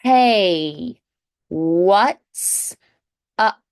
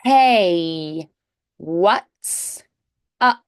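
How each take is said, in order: Both takes have the same delivery.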